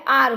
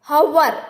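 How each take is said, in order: First: The word starts with a vowel, no h. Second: The word starts with an audible h sound. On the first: The speaker calls it right. "आर कहते हैं" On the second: The speaker calls it wrong. "हवर ऐसा नहीं कहते"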